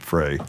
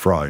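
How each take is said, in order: First: The name rhymes with 'day'. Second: The name rhymes with 'fly'. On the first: The speaker calls it wrong. "not Frey" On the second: The speaker calls it right. "it's Fry"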